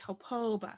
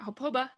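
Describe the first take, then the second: First: The second vowel is long. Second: The second vowel is short. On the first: The speaker calls it right. "this one has to be lengthened when you pronounce it" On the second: The speaker calls it wrong. "it's not"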